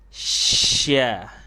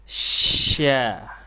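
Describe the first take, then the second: First: The hiss runs straight into the syllable. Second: The hiss runs straight into the syllable.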